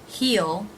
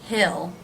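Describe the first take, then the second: Both takes have the same delivery.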